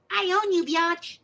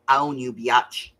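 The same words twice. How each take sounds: First: Put-on tiny, very high-pitched baby squeak; cute baby voice. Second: Said in the usual way. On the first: Newborn granddaughter claiming her grandmother, cute high baby voice. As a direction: say it like a sassy little newborn. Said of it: "in the cutest little baby voice". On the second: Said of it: "I heard her go".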